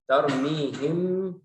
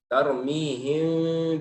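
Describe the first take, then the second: First: The final m is fully and clearly closed. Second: The final m is softened with parted lips. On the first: "mimnya jelas" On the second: "ada celahnya di antara dua bibir"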